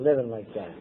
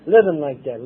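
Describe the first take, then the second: First: Much lower, softer echo; quiet echo. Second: Said in the usual way. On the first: Real, not acted. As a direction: let the repeat fade away. Echo of the previous line.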